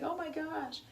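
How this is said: It sounds happy and pleased.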